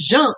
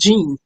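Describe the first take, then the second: First: The name is said with its native pronunciation. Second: The name is said with an English pronunciation. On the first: The name is defended as it really is. The speaker calls it right. "You're gonna correct people every time. My name is Jean" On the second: The name is adapted to English speakers. The speaker calls it wrong. "It's not Jean"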